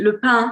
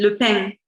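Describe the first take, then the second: First: It is said in a Parisian French accent. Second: It is said in a southern French accent. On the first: "Paris Parisian accent would be" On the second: "the South accent would be"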